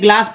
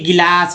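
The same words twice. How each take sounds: First: It starts with a direct 'gl' cluster. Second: An extra vowel splits the 'g' and 'l'. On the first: The speaker calls it right. "तब ये गिलास पढ़ेंगे" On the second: The speaker calls it wrong. "न कि गिलास या बिस्कुट पढ़ेंगे"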